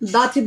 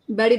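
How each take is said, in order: First: The middle consonant is a clear t sound. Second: The middle consonant sounds like a d. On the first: "So when it comes to British, so, so we speak like this" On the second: "And when it comes to American"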